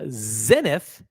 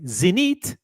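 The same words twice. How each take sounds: First: The name is pronounced the English way. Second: The name is pronounced the French way.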